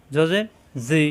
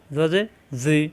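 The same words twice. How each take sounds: The two takes are said the same way.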